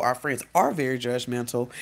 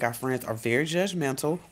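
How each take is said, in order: First: Insistent emphasis on "are"; stress on ARE. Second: Said in the usual way. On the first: Real, not acted. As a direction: lean hard on "are" to insist it's true. Restated as actually true.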